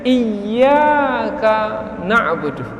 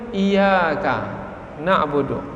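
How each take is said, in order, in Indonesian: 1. Bunyi y itu dibaca panjang dan rangkap. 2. Bunyi y itu pendek dan tunggal. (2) "ada yang membacanya kurang baik"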